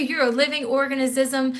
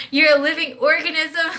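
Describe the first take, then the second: First: Said in the usual way. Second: Says it again through a laugh. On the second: Shown as a demonstration. Telling her own body it's alive, laughing. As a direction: let the laugh break into the line.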